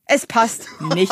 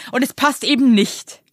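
First: Very slow, with "nicht" set apart after a pause; emphatic stress. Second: Slow, firm weight on "eben nicht"; emphatic stress. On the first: Co-host repeats the verdict, very slow with separate, stressed "nicht". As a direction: spell out the verdict word by word, isolating "nicht". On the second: Co-host rebuts complacent men, stressing "eben nicht" slowly and firmly. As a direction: lean on "eben" and land hard on "nicht". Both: Real, not acted. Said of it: "wie du es betonst".

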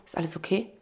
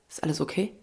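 First: Soft, low, caring "okay" rising; man asks her gently, softly caring; concerned question. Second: Softly asked, lower, caring; concerned question. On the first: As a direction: gently ask a stranger. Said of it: "es fällt ihm so alles so". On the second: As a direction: quietly check on someone. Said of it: "guckt mich an und sagt". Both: Retold or imitated.

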